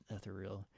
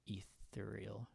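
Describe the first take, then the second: First: "ethereal" said eth-ER-ee-al with a clear th; proud careful "ethereal"; correct pronunciation. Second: Ethereal said slowly as /i-ril/, swallowing the middle; drawn-out mangled "Ethereal"; butchered pronunciation. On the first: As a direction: carefully land "ethereal" as /ɛθɪriəl/. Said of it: "I nailed it". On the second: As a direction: stumble through "Ethereal" with the th dropped. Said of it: "I think I just butchered that pretty good". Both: Shown as a demonstration.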